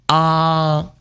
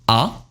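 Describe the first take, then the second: First: The pitch stays high and level. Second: The pitch rises from middle to high. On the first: "First tone high" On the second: "Second tone rising"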